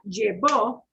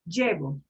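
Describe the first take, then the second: First: The stress is on the last syllable. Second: The stress is on the first syllable. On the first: He or she took it. "like punching the O" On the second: I am taking someone. "no accent mark"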